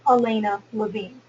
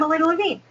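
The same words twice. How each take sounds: First: The name is said slowly with clear gaps. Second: The name is said quickly and run together. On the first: The listener can catch the name. The speaker calls it right. "I need to put in spaces, and I need to be a little bit more slow" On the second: The speaker is nervous and excited. The speaker calls it wrong. "I might be speaking very fast"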